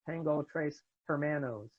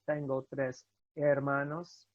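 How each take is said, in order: First: The h in hermanos is pronounced. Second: The h in hermanos is silent. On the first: The speaker calls it wrong. "A lot of people I've heard say" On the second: The speaker calls it right. "you do not pronounce it at all in Spanish"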